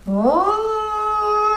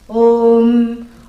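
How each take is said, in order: First: The syllable is drawn out long like a siren. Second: The syllable is short and contained. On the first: The speaker calls it wrong. "like this, siren. So you can't sound like that" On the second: The speaker calls it right. "That's how long it should be"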